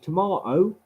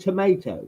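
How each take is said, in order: First: It is said in a British accent. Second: It is said in an American accent. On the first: The speaker calls it right. "It is tomato" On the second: The speaker calls it wrong. "It is not fucking tomato"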